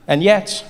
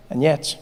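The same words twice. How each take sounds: First: Said in the usual way. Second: Quieter echo. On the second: Shown as a demonstration. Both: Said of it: "repeated for effect".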